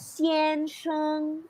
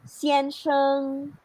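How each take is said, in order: First: Both syllables get equal strong emphasis. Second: The first syllable is light, the second emphasized. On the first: The speaker calls it wrong. "you don't have to read this one as xian, sheng. It's very awkward" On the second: The speaker calls it right. "We can read this one as xian sheng"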